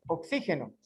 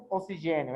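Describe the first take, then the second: First: "oxígeno" stressed on XÍ, with Spanish throaty g; Spanish pronunciation. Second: "oxigênio" stressed on the GÊ; Portuguese pronunciation. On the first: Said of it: "é oxígeno". ("oxígeno" com a tônica no XÍ, em espanhol) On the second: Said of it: "em espanhol não é oxigênio". ("oxigênio" com a tônica no GÊ, como em português) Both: Shown as a demonstration.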